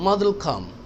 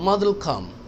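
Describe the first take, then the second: First: Will is joined to the previous word. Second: The same.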